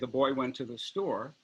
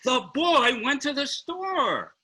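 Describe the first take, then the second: First: It is said in a neutral tone. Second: It is said in an enthusiastic tone.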